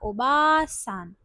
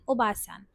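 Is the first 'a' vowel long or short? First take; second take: long; short. First: The first 'a' vowel is stretched long. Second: The first 'a' vowel is short.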